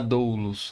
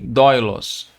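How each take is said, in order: First: The first vowel sounds like 'oo'. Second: The first vowel sounds like 'oy'. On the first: The speaker calls it wrong. "Você não vai falar doulos" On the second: The speaker calls it right. "E sim doilos"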